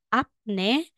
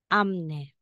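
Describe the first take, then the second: First: A p sound comes before the n. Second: An m sound comes before the n. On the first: The speaker calls it wrong. "instead na sasabihin mong apne" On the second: The speaker calls it right. "magiging amne"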